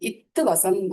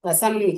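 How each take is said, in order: First: The opening consonant is stressed as its own syllable. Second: The opening consonant blends smoothly into the word. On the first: The speaker calls it wrong. "இத்து வசம் அப்படின்னு படிக்கக்கூடாது" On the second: The speaker calls it right. "வசம் அப்படின்னு படிக்கணும்"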